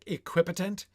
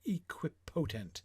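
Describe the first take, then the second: First: The stress pattern matches omnipotent. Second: The stress pattern differs from omnipotent.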